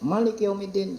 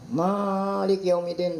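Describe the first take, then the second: First: The first vowel of Malik is short. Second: The first vowel of Malik is long. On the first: The word is read without the alif. "seratus lima puluh lima" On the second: The word is read with the alif. "seratus lima puluh enam"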